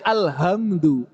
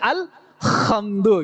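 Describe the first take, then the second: First: The h sound is soft and plain. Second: The h sound is exaggerated and harsh. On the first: Being too casual loses the sound. "Santai-santai jadi alhamdu" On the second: Trying too hard to sound fluent overshoots the sound. "pengen fasih malah jadi alhamdu gitu. Karena pengen fasih malah kelebihan"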